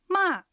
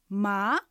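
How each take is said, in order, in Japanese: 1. 音は高いところから急に下がります。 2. 音は中くらいから高く上がります。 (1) "びっくりするような下がる音です。" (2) "え、とこう聞き返すように上がる音です。"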